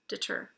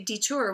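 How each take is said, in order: First: The first vowel is a reduced 'uh' sound. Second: The first vowel is a full 'ee' sound. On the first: The speaker calls it right. "we say deter with an uh" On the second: The speaker calls it wrong. "We don't always say detour"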